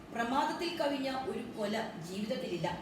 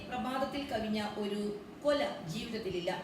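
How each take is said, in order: No difference in how they are said.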